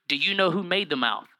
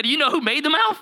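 First: Said in the usual way. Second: Emphatic God. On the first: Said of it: "God tells Moses". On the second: Retold or imitated. God challenging Moses again, emphatic and pointed. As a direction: press it like God calling Moses out. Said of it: "He said".

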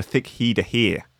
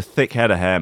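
First: "thick head of hair" said like "thick heed a heer"; "head of hair" with long ee vowels; altered vowels. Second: Said in the usual way. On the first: Shown as a demonstration. Phrase repeated with vowels changed.

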